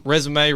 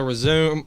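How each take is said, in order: First: RESUME said REZ-uh-may, three syllables; resume like the CV word, REZ-oo-may. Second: RESUME said like the verb, ri-ZOOM; resume without the final AY. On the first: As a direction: say resume with a final AY. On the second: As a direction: say resume as two syllables, ri-ZOOM. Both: Shown as a demonstration. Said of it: "however you wanna say it".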